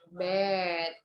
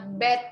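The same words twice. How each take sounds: First: The vowel is long. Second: The vowel is short. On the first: The speaker calls it wrong. "not bed" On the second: The speaker calls it right. "Kalau short vowel itu benar-benar nggak panjang"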